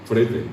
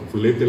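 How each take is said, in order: First: "frete" with a tapped R instead of L; R in place of L. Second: "flete" with a clear L after the F; L pronounced. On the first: Quoting the sign's misspelling, "frete" with R. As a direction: turn flete into "frete". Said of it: "un letrerito decía". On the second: Correcting the sign's spelling, "flete" with L. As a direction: keep the L in "flete". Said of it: "la L no es guaraní". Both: Shown as a demonstration.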